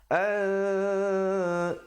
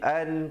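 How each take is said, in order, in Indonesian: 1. Bunyi n tersembunyi dalam dengung sengau. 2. Bunyi n diucapkan dengan jelas dan penuh. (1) "di situ hukum ikhfa" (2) "kalau bunyi an bunyi jelas, bunyi izhar"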